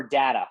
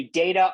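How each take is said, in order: First: "data" as DAT-uh; first syllable of "data" like "dat"; short-A pronunciation. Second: "data" as DAY-tuh; first syllable of "data" rhymes with "day"; long-A pronunciation. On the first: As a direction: say "data" with the vowel of "cat". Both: Shown as a demonstration. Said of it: "pronounce five words".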